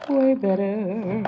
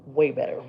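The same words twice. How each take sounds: First: Slow, higher and louder "Way better"; drawn-out approval. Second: Said in the usual way. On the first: Shown as a demonstration. Admiring her finished brow, drawn-out proud approval. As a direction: stretch out "Way better" with satisfied emphasis.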